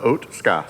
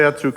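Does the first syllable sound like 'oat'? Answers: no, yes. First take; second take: yes; no. First: The first syllable sounds like 'oat'. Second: The first syllable does not sound like 'oat'. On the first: "the correct pronunciation for Otska is uh, think of oatmeal" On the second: "if you say Atsuka or Osuka or whatever you say, it's fine"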